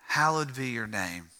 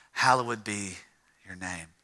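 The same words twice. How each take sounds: First: Said in the usual way. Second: "Hallowed" in three syllables, hal-lo-wed; King James pronunciation. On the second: Shown as a demonstration. Preacher quoting the King James prayer, "Hallowed" with sounded -ed. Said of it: "put the emphasis on the ed".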